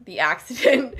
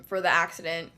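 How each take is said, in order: First: Sarcastic air-quote delivery with a laugh. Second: Said in the usual way. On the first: Real, not acted. Podcaster mocking the official story, wry laugh. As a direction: say it like a so-called accident, laughing. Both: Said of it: "I say in quotation marks".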